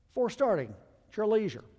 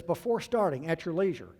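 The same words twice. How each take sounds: First: Higher and louder, teasing "leisure"; mocking the captain. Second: Said in the usual way. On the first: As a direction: parody his lazy call. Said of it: "He's calling for the before start checklist". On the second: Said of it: "he says".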